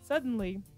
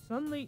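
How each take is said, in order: First: It is said in a normal narrator voice. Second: It is said in a girly anime voice.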